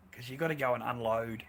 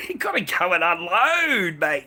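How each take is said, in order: First: Said in the usual way. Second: Laughing. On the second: Real, not acted. Repeats line laughing and louder.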